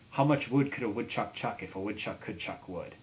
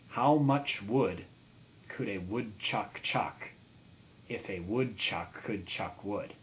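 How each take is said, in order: First: It is said very fast. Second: It is said very slowly.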